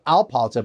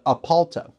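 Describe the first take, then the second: First: An L sound follows the first vowel. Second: No L sound follows the first vowel. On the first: The speaker calls it wrong. "Not Alpalta" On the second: The speaker calls it right. "but Apalta"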